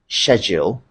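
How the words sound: It is said with a British pronunciation. "the right pronunciation in British English"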